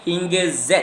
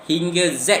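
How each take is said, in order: Both takes have the same delivery.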